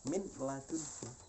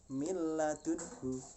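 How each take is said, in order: First: The n is pronounced clearly before the l. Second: The n merges fully into the following l. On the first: The speaker calls it wrong. "dibandingkan dengan" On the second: The speaker calls it right. "mudah kan"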